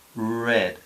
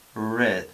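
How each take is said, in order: First: The r is smooth with the tongue curled back. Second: The same.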